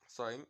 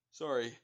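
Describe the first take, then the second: First: Sorry said mid-yawn. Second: Said in the usual way. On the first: Real, not acted. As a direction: talk through a yawn. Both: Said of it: "Had to yawn".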